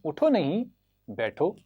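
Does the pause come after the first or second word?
second. The pause comes after the second word.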